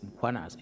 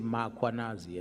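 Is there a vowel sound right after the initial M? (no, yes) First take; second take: no; yes. First: No vowel comes after the first M. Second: A vowel is inserted after the first M. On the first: The speaker calls it right. "there's no A, it's Mkhwanazi" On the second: The speaker calls it wrong. "they will put an A after M"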